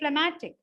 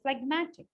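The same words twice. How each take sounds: First: The g sound is left out. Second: The g sound is clearly pronounced. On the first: The speaker calls it wrong. "I don't say phlegmatic" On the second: The speaker calls it right. "I do say the j there"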